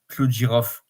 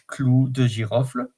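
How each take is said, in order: First: The final 'le' sound is dropped. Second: The final 'le' sound is fully pronounced. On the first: "we can say Clou de Girofle. You are not obliged to pronounce the L and the E" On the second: "if you have to pronounce it really well"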